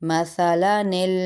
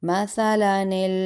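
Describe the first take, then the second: The two takes are said the same way.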